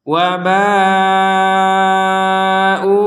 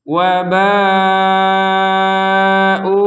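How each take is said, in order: The two takes are said the same way.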